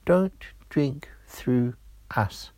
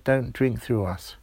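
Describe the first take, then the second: First: Slow, whispery little straw voice; hushed warning, word by word; tiny voices in chorus. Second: Said in the usual way. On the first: Acted. Two straws warning Georgia together, slow whispery chorus. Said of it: "the voices spoke together".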